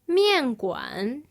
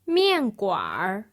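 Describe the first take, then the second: First: The word ends with a plain n sound. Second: The word ends with an added r sound.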